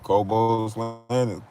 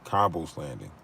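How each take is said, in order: First: The name sounds like 'Kobo', two open syllables. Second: The name sounds like 'Cobble', ending in L. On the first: The speaker calls it wrong. "I've been pronouncing it wrong" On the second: The speaker calls it right. "It's Cobble's landing"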